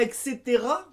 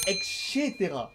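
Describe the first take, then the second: First: Said in the usual way. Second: Et cetera dit « ek-chétéra »; prononciation québécoise. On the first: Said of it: "on dit pas et cetera". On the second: Shown as a demonstration. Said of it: "et là-bas, c'est et cetera". (et cetera avec un « ché » à la québécoise)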